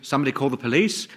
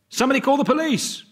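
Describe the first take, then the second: First: It is said as a surprised question. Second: It is said as an urgent exclamation.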